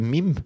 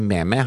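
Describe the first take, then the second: First: The word is said with one syllable. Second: The word is said with two syllables. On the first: The speaker calls it right. "Det heter mim" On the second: The speaker calls it wrong. "det heter ikke meme"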